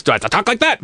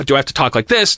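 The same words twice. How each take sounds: First: Pitched well up, questioning; trying another voice. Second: Said in the usual way. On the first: Shown as a demonstration. Performer unsure how to talk to be left alone, high voice. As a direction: lift the voice high as a trial way of talking.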